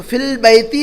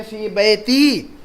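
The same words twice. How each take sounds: First: "फिल बैती" with L held in fil; "फिल बैती" showing the added article; common article slip. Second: "फी बैती" with long fii, no article; teacher's model of "फी बैती", no L; correct form. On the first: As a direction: say "फिल बैती" as fill-baytii. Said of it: "अलिफ लाम भी लगा देते हैं". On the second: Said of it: "तो आप ऐसा लिखेंगे". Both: Shown as a demonstration.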